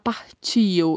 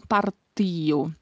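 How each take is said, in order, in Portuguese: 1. O t é suavizado num som parecido com ch. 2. O t é um som de t duro, simples. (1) "não se fala partio" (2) "e sim partio"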